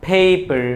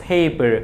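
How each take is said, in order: Both takes have the same delivery.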